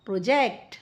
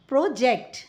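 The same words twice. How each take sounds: First: प्रोजेक्ट as pro-JECT; verb stress. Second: प्रोजेक्ट as PRO-ject; noun stress. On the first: Teacher reads the verb aloud, second syllable of प्रोजेक्ट stressed. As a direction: lower first syllable, weight on the end of प्रोजेक्ट. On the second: Teacher reads the noun aloud, first syllable of प्रोजेक्ट stressed. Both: Shown as a demonstration. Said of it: "with the correct syllable stress".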